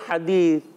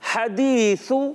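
First: The final th sound is weak and barely heard. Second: The final th sound is clear and distinct. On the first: The speaker calls it wrong. "حرف کو صحیح بڑھا ہی نہیں" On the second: The speaker calls it right. "تو آپ نے اس کو کلیئر بھی کرنا ہے"

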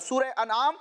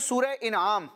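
First: The word begins with an 'a' vowel. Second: The word begins with an 'i' vowel. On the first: It means cattle or livestock. The speaker calls it right. "الف پر یعنی حمزہ پر زبر آئے گا" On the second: It means a gift or reward. The speaker calls it wrong. "بعض لوگ پڑھتے ہیں سورہ انعام, تو یہ انعام نہیں ہے جو گفٹ کے معنی میں ہوتا ہے"

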